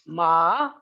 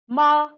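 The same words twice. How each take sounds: First: The pitch dips low then rises. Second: The pitch stays high and level. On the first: "low dipping, is falling and rising" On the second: "first tone is high level pitch"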